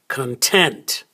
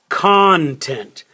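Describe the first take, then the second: First: The stress is on the second syllable. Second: The stress is on the first syllable. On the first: It describes a feeling of being satisfied. "So the stress is on the second syllable" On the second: It names the things held inside something. "That's where we stress the first syllable"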